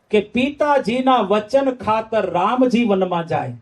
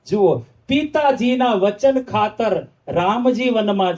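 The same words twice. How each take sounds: First: Said in the usual way. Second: Slower, leaning on Ramji as the respectful form; slow emphatic retelling. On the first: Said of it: "શબ્દ શું વાપર્યો?". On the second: Shown as a demonstration. Preacher to crowd, slower, stressing Ramji. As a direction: draw out Ramji respectfully, slowly. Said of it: "Ramji શબ્દ વાપર્યો છે".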